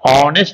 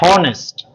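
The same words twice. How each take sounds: First: The word starts without an h sound. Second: The word starts with an h sound. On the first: The speaker calls it right. "but H is silent. Honest we say" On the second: The speaker calls it wrong. "Don't say honest"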